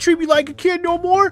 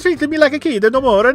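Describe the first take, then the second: First: It is said in a whiny, complaining voice. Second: It is said in a put-on Italian accent. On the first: "I could just make him a whiner" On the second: "Mario Italian"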